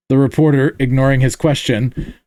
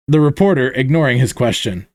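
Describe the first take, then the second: No difference in how they are said.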